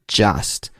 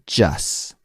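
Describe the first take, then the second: First: The final T sound is clearly pronounced. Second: The final T sound is dropped.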